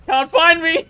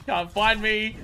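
First: Louder, higher gloating sing-song; loud teasing taunt. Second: Said in the usual way. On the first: Pretend. Gamer taunting enemies who can't find him, loud gloating.

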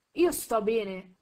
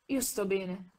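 First: Slow and louder, "Io" leaned on, falling at the end; voice he barely recognises. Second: Said in the usual way. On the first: A narrator's reading. Drogo insists to the doctor, in an odd slow voice. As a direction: say "Io sto bene" as if the voice were a stranger's. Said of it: "quasi non riconoscendo la propria voce". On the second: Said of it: "ripeté Drogo".

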